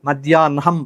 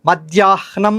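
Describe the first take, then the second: First: The n sound comes before the h. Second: The h sound comes before the n. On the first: It follows a prescribed reading rule. "హాకు నావత్తున్న నాకు హావత్తులాగా పలకాలి" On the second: It follows the written form. "రాసిన లిపిలో ఇలా ఉంది కాబట్టి అది పలకాలి అనుకుని"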